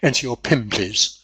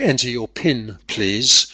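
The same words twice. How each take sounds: First: Pin ends in an m sound. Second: Pin ends in a clear n sound. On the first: "he actually says ... the N becomes a M because of the P following it" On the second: "instead of saying"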